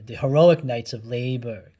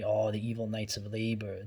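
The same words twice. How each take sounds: First: Louder, grandly ironic "heroic" after calling them evil; mock-heroic praise. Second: Said in the usual way. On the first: Shown as a demonstration. Reading the cartoon's view of the Knights, louder and mock-grand. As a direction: swell up loud and sarcastic on "heroic".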